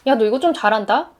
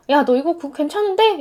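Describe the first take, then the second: First: Tossed off lightly, stress on 좀 with a rise; casual praise, 좀 lifted at the end like a throwaway; offhand remark. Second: Casual throwaway, weight on 괜찮은데; offhand remark. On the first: A friend tosses off casual praise, saying 좀 lightly with a rise. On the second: A friend casually praises, weight on 괜찮은데 in offhand tone. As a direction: toss off 괜찮은데 like it's nothing. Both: Retold or imitated. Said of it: "별거 아니게 툭 던졌던".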